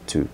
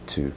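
First: The word has a full, long oo vowel. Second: The word has a full, long oo vowel.

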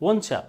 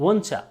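Both takes have the same delivery.

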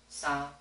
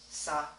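No difference in how they are said.

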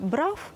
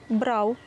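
First: The final v sounds close to an f. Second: The final v sounds close to a u. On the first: The speaker calls it wrong. "звук «ви» не можна наближати до «фи», бо тоді буде" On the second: The speaker calls it right. "Правильно вимовляти"

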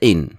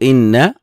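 First: The final n sound is short and single. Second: The final n sound is doubled and held. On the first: It is the conditional particle used before a verb. The speaker calls it wrong. "وليس إن، لأن إن شرطية" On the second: It is the particle that introduces a nominal sentence. The speaker calls it right. "نقول إن"

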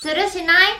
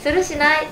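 First: It is said in a cute, girlish way. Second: It is said bluntly and forcefully.

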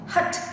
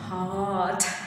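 First: The vowel is cut short. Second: The vowel is drawn out long. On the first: The speaker calls it right. "кратко" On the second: The speaker calls it wrong. "а там он тянет"

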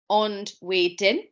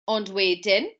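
First: The phrase is said slowly and carefully. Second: The phrase is said quickly at natural speed.

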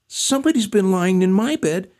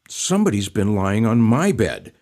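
First: It is said in a tiny squeaky voice. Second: It is said in a medium grumbling voice.

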